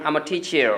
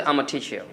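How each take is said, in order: First: American-style 'teacher' with the final r sounded; light American accent, r on the end of 'teacher'. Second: Slow British-style 'teacher', r dropped; British speaker's linked 'I'm a', soft 'teacher' ending; British accent. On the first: Showing what an American would say, American accent. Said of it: "আবার American একজন ব্যক্তি". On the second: Showing what a British speaker says, British accent. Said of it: "সে কীভাবে বলছে?". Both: Shown as a demonstration.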